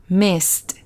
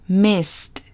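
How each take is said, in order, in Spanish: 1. La terminación se dice como un solo sonido t. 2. La terminación se dice como un solo sonido t.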